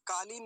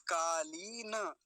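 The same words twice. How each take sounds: First: कालीन said quickly, stopping dead on the n; wrong clipped ending. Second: कालीन drawn out slowly, long ee, ending in na; full final na. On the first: Teacher warning students off the everyday form, quick clipped ending. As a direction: say कालीन with no vowel after n. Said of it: "कालीन नहीं बोलेंगे". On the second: Teacher modelling the word for students, slow full final na. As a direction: stretch कालीन into kaa-lee-na. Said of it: "न, नकार पूरा है". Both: Shown as a demonstration.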